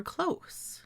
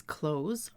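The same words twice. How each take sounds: First: "close" ending in voiceless s; close as CLOSS, long o. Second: "close" ending in voiced z; close as CLOZE. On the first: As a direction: say "close" to rhyme with "dose". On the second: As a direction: say "close" to rhyme with "nose". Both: Shown as a demonstration. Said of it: "I may read these words as".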